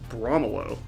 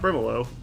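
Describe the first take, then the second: First: The vowel after Br sounds like 'oh'. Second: The vowel after Br sounds like 'ih'. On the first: The speaker calls it right. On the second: The speaker calls it wrong. "not Brimelo"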